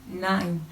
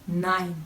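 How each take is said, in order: Both takes have the same delivery.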